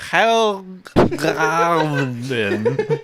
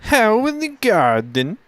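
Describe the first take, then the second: First: "Hoegaarden" drawn out slowly as "haa-gaa-en"; Belgian pronunciation. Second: "How in the garden" in a high, slow mock German accent; German accent, high, stretched. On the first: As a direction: say "Hoegaarden" very slowly, vowels stretched. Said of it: "How do you think you pronounce it?". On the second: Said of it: "You sounded more like a". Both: Shown as a demonstration.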